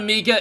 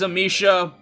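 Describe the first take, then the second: First: The middle consonant is a hard k sound. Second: The middle consonant is a soft sh sound. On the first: The speaker calls it wrong. "It's not Amika" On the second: The speaker calls it right. "it is Amisha"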